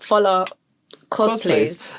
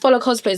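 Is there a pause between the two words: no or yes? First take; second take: yes; no. First: There is a pause between the two words. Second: The two words run together without a pause. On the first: The speaker calls it wrong. "there's a gap" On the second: The speaker calls it right. "It's together"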